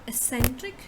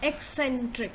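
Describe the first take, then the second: First: The word does not begin like 'egg'. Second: The word begins like 'egg'. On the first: The speaker calls it wrong. "it's not uh, eccentric" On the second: The speaker calls it right. "So you say egg first"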